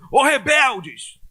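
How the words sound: It is shouted loudly and angrily.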